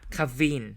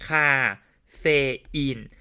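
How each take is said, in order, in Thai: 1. พยางค์กลางสองพยางค์รวมเสียงกัน จึงได้สองพยางค์ 2. แต่ละพยางค์ออกเสียงแยกกัน จึงได้สามพยางค์ (1) "มันไม่มีเฟนะเขาออกเสียงควบกันครับ" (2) "เราอ่านแยกทีละบรรทัดแยกทีละพยางค์"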